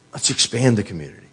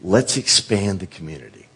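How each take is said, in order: First: Faster, pressing on with the plan; quicker repeat. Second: Said in the usual way. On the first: Retold or imitated. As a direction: rush the repeat a little. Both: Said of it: "one day they said".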